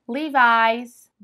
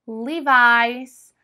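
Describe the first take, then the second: No difference in how they are said.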